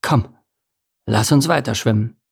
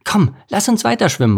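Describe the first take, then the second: First: Said in the usual way. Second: High, eager call; bright-eyed urging, pitched high. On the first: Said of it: "erwiderte Anton". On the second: A narrator's reading. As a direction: call your friend onward. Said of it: "rief Lars".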